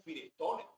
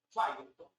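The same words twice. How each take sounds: First: "Firestone" read as Spanish, fi-res-TO-ne; Spaniards' clear pronunciation. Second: "Firestone" with first syllable like "fai"; English-style pronunciation. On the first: Lecturer imitating Spaniards, "Firestone" spelled out as fi-res-TO-ne. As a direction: sound every letter of "Firestone" in Spanish. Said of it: "lo dicen así clarito". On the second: Lecturer showing what Spaniards avoid, "Firestone" said English-style. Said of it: "los españoles no dicen". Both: Shown as a demonstration.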